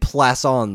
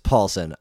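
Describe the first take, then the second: First: The name is said in a fancy, foreign-sounding way. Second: The name is said plainly, as it is written. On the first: The speaker calls it wrong. "I was saying Plasson the whole time, thinking it was some sort of fancy schmancy foreign thing" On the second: The speaker calls it right. "It's phonetic. I looked at it and I said, of course it's Paulson"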